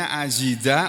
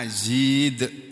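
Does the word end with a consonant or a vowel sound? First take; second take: vowel; consonant. First: The word ends with a final vowel sound. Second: The word ends on the consonant d. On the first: This is how it is written. "tulisannya azida" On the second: This is how it is read aloud. "membacanya azid"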